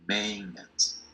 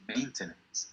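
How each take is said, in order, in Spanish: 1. La t del medio no se pronuncia. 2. La t del medio se pronuncia. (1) "la T no suena" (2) "Se puede decir maintenance, ¿está correcto?"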